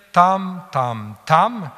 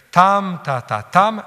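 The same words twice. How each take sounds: First: Spondée scandé: TAM, TAM, TAM en longues égales et appuyées; rythme de spondée. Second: Dactyle scandé: TAM long, ta-ta brefs, TAM long; rythme de dactyle. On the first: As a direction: marteler trois « tam » longs, réguliers. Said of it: "Alors, si je fais". (« tam, tam, tam » scandé en spondée, syllabes longues et égales) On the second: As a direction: appuyer « tam », passer vite sur « ta, ta ». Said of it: "si je fais un dactyle". (« tam, ta, ta, tam » scandé, une longue puis deux brèves) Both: Shown as a demonstration.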